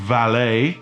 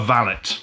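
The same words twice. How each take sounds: First: It is pronounced the French way. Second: It is pronounced the English way. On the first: "they prefer the French pronunciation" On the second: "That's the correct pronunciation"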